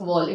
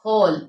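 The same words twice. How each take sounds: First: The w sound is pronounced at the start. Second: The w sound is silent at the start. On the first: The speaker calls it wrong. "not whole" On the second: The speaker calls it right. "it is whole"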